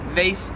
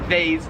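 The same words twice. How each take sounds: First: It rhymes with face, American style. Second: It is said the Australian way. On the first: "it rhymes with like face" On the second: "whereas here it is vase, as in like phase"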